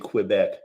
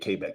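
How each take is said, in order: First: It is said with an American pronunciation. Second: It is said with a non-American pronunciation. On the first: The speaker calls it wrong. "like we Americans say Quebec" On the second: The speaker calls it right. "K okay, yeah"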